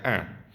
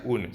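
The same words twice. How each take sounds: First: "un" as a nasal "an", n silent; French nasal "un"; correct French pronunciation. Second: "un" read Spanish-style, as "oon"; wrong pronunciation. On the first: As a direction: say "un" as one nasal vowel. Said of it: "se pronuncia un". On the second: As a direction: sound the n fully in "un". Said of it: "No se pronuncia un". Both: Shown as a demonstration.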